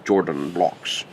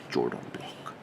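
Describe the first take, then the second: First: Jordan said with a hard Yordan-like J, slow and drawn out; lightly mimicking an accented lecturer saying Jordan blocks; professor's accent. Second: Jordan block breathed out in a whisper, much softer; soft whispered echo of the accented Jordan block; whispered repeat. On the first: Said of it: "linear algebra professor's accent". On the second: Shown as a demonstration. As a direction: whisper it to yourself. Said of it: "That's how he talked".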